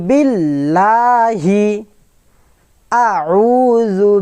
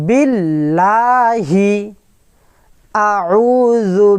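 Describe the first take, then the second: The two takes are said the same way.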